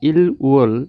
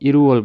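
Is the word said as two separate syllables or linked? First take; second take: separate; linked. First: The final l stays, then a separate wol. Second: The l links into the next syllable as r. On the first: The speaker calls it wrong. "আপনারা মনে করবেন যে ইল উওল" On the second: The speaker calls it right. "আমি কেন ইরুওল বলতেছি"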